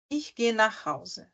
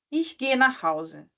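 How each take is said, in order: First: Ich gehe nach Hause slow and softer, dropping on Hause; teacher repeats the falling tune; falling statement, softer. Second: Ich gehe nach Hause said slowly, pitch dropping on Hause; teacher shows statement intonation; falling statement. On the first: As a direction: sink the last word. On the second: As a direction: let it fall at the end. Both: Shown as a demonstration. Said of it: "Parece que, psh, cai".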